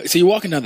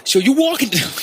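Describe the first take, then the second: First: Said in the usual way. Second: High-pitched, hammed-up New York accent; big mock New York voice. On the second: Shown as a demonstration. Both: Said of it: "Can you be a little bit more New York".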